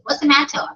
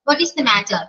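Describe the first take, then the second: First: 'What is' is shortened into one syllable. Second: 'What is' is said as two full words. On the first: The speaker calls it right. "Short ആകാം" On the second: The speaker calls it wrong. "വാട്ട് ഈസ് the matter എന്നൊന്നും ചോദിക്കരുത്"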